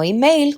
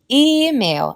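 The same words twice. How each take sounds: First: The stress is on the second syllable. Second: The stress is on the first syllable. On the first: The speaker calls it wrong. "no email como en español" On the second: The speaker calls it right. "sino email en la primera sílaba"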